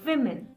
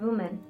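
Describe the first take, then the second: First: It sounds like the plural women. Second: It sounds like the singular woman. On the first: The speaker calls it right. "This is women" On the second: The speaker calls it wrong. "reading it as woman"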